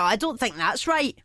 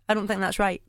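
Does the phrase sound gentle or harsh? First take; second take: harsh; gentle. First: The phrase sounds blunt and harsh. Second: The phrase sounds soft and gentle. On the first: It sounds like a sharp rebuke. "it'll come across as harsh" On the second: It is a kind, honest disagreement. "What I mean is"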